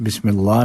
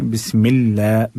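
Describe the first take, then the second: First: बिस्मिल्लाह with a heavy, dark ला; wrongly thick Allah. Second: Slow बिस्मिल्ला with a light front ला; thin Allah. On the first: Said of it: "बिस्मिल्लाह नहीं पढ़ना है". (बिस्मिल्लाह का लाम मोटा) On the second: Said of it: "अल्लाह को बारीक पढ़ना है". (बिस्मिल्ला का लाम बारीक) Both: Shown as a demonstration.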